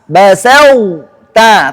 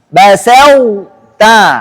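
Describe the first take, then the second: No difference in how they are said.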